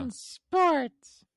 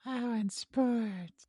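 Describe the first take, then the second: First: High, loud puppet voice; Elmo-like voice. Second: High puppet voice, very slow; sexy Elmo. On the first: Co-host repeating the segment tag, high puppet voice. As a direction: pipe it up like a little puppet. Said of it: "that was like a sexy Elmo". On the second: Co-host asked to say it slower, sexy Elmo voice. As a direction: draw it out as a seductive puppet. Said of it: "Say it slower". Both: Pretend.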